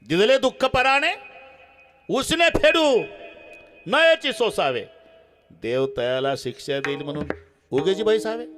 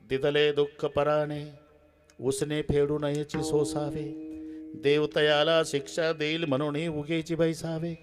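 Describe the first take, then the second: First: It is said mockingly, with changed rises and falls. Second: It is said as sincere, calm advice.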